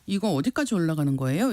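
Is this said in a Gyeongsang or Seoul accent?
Seoul. It is read flatly in a Seoul accent. "서울말씨 쓰시는 분들은 읽어보라고 하면 ... 이렇게 톤 없이"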